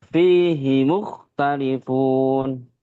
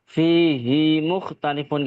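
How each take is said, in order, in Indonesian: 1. Vokal akhir fihi pendek, mengalir terus. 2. Vokal akhir fihi dibaca panjang. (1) "Hinya itu pendek, Hinya langsung ke mu ya" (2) "nggak boleh fihi mukhtalifun, nggak boleh"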